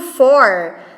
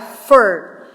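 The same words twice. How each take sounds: First: The vowel of 'for' is full. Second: The vowel of 'for' is reduced to schwa.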